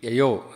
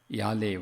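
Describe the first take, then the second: First: The name is said like 'Yayo'. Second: The name is said like 'Yale'. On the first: The speaker calls it right. "It should be Yayo, or something more or less similar to that sound" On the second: The speaker calls it wrong. "as I pronounced it"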